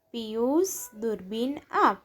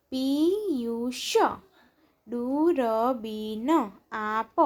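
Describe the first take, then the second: First: Said in the usual way. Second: Piyush, દૂરબીન આપ slow, each syllable held; drawn-out Piyush, દૂરબીન આપ, syllables separated. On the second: Shown as a demonstration. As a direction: sound out Piyush, દૂરબીન આપ slowly. Syllable-by-syllable reading, then blended words.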